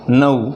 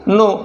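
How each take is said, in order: First: The vowel is a gliding 'ow' sound. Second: The vowel is a pure 'oh' sound. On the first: The speaker calls it right. "परंतु त्याचा उच्चार येईल नऊ" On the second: The speaker calls it wrong. "आपण त्याला नेहमी म्हणतो नो"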